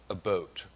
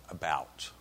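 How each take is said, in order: First: "boat" with a long o, as in the vessel; "a boat" spoken as regional vowel demo; Upper Peninsula pronunciation. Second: Said in the usual way. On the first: Shown as a demonstration. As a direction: say "a boat" for about. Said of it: "They say "a boat" rather than "about". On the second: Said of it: "rather than "about".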